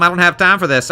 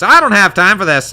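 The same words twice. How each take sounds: First: Said in the usual way. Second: High, loud brush-off in character; impatient character. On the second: Acted. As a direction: snap it out as an impatient prince. Chosen option acted in character.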